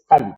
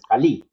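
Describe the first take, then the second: First: The stress is on the first syllable. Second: The stress is on the last syllable. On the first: The speaker calls it right. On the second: The speaker calls it wrong. "Cali no tiene acento, no es"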